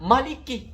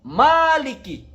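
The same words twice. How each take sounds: First: The vowel after the m is short. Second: The vowel after the m is long.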